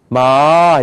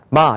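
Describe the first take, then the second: First: The pitch rises from low to high. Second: The pitch stays high and level. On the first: "마 이렇게 올라간단 말이에요" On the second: "첫 번째 이런 발음이에요. 마 이렇게 하라고요"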